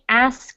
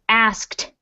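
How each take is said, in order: First: The word ends without a final t sound. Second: The word ends with a clear t sound. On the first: The speaker calls it wrong. "It's not going to be" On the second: The speaker calls it right. "but it's"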